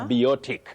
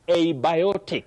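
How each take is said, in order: First: The word begins without an 'ay' vowel sound. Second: The word begins with an 'ay' vowel sound. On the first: The speaker calls it wrong. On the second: The speaker calls it right. "just like abiotic"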